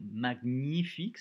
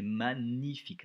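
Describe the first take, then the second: First: "magnifique" with a hard g, as "mag-nifique"; "magnifique" mispronounced as "mag-nifique"; wrong pronunciation. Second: "magnifique" slowly, with gn as "ny"; correct pronunciation. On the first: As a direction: sound the g separately in "magnifique". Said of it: "Attention, c'est pas magnifique". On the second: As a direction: say "magnifique" as "ma-nyifique", drawn out. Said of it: "c'est magnifique". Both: Shown as a demonstration.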